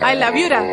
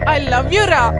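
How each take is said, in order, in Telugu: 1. ఇది ముక్తసరిగా, ఎలాంటి ఆప్యాయత లేకుండా అంటారు. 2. ఇది మధురంగా, స్పష్టమైన ప్రేమతో అంటారు. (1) "అలా కాదు బేబీ" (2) "ప్రేమతో"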